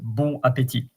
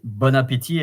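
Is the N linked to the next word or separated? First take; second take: separated; linked. First: The words are said separately without linking. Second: The N links into the next word. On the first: The speaker calls it wrong. "and not bon appétit" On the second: The speaker calls it right. "I say bon appétit"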